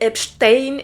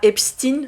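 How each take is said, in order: First: The second syllable has an E-like vowel. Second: The second syllable has an I-like vowel. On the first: "je vais dire Epstein ... E I se prononce E" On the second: "et pas Epstein ... et pas euh, I"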